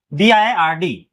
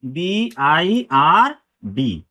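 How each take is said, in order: First: Said in the usual way. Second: Very slow, stretched letters B, I, आर, D; letter-by-letter teaching pace for B I R D; spelled out slowly. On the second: Shown as a demonstration. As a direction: draw each letter out with a gap after it.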